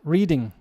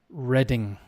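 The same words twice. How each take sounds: First: It sounds like the verb 'reading'. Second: It does not sound like the verb 'reading'. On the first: The speaker calls it wrong. "Reading a book. Reading. Wrong" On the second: The speaker calls it right. "The pronunciation of this is Reading"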